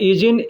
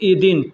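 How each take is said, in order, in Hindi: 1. बीच का व्यंजन 'z' की ध्वनि है। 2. बीच का व्यंजन 'd' की ध्वनि है। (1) "दोनों तरीक़ा से लोग बोलते हैं" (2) "दोनों तरीक़ा से लोग बोलते हैं"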